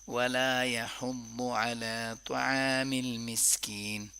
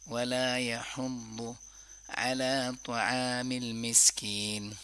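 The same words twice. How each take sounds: Both takes have the same delivery.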